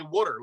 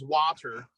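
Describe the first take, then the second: First: WATER as "wooder"; local "water". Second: WATER as "wah-ter", drawn out; son's "water". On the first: Shown as a demonstration. Guest contrasts his son's word, WATER as "wooder". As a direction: say WATER with the Philly "wood" vowel. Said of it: "but I say water". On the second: Retold or imitated. Guest quotes his son saying WATER as "wah-ter". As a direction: say WATER with an open "ah". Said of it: "My son says water".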